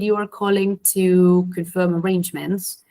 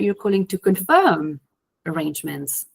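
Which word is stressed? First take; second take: none; confirm. First: The sentence has neutral stress on no single word. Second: The word confirm is strongly stressed. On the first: A plain statement of purpose. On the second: The speaker is correcting a misunderstanding.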